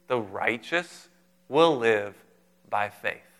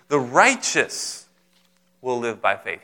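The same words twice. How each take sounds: First: The stress falls on the word faith. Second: The stress falls on the word righteous. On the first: The point is about faith. "isn't that book about faith?" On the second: The point is about being righteous. "He's emphasizing the righteous"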